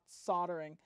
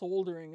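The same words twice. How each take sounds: First: It is said with an American pronunciation. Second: It is said with a British pronunciation. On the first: The speaker calls it wrong. "it's not soldering" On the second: The speaker calls it right. "my British audience is telling me it's soldering"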